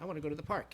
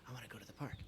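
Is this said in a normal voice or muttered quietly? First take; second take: normal voice; muttered quietly. First: It is said aloud in a normal voice. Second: It is muttered quietly under the breath.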